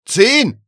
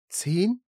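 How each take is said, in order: First: Full, high shout of ZEHN; insistent, very loud exclamation. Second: High rising ZEHN; surprised echo, voice lifting; incredulous question. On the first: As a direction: yell ZEHN with a sharp fall. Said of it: "rief er". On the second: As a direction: query ZEHN in disbelief. Agent queries the shouted number. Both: A narrator's reading.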